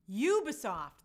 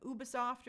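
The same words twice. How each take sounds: First: "Ubisoft" starting YOU, punched louder; confirmed pronunciation. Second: "Ubisoft" starting with a European OO; European-style pronunciation. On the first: Host confirms the answer from viewers, "Ubisoft" firmly starting YOU. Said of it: "that's what it is". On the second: Host guesses at a European word, "Ubisoft" starting OO. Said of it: "It's like a European word". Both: Shown as a demonstration.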